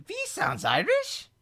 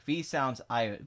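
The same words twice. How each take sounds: First: Very high, squeaky rising question; incredulous echo. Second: Said in the usual way. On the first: Acted. Streamer questioning a chat comment about V, high incredulous squeal. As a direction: repeat it back in a shooting-up disbelieving pitch.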